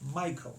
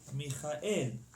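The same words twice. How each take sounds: First: The stress is on the first syllable. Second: The stress is on the last syllable. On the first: This is the English pronunciation. "in English we say Michael" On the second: This is the Hebrew pronunciation. "In Hebrew we say Michael at the end"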